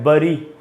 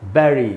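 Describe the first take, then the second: First: The first vowel sounds like uh. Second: The first vowel sounds like eh. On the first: The speaker calls it wrong. "दोनों ही उच्चारण गलत है" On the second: The speaker calls it right. "इसका शुद्ध उच्चारण है"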